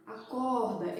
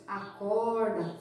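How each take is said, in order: First: "acorda" with the R as an h; normal R. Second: "acorda" with the R curled back, American-style; drawn-out "acorda" with a retroflex Minas R; curled caipira R. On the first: Teacher showing parents her own accent, normal R. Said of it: "O R normal". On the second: Teacher imitating people from Minas, curled R. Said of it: "aquele sotaque com R bem enrolado". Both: Shown as a demonstration.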